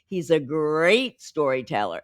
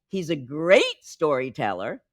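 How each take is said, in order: First: A vowel in a word is stretched out. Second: A word jumps out through higher pitch.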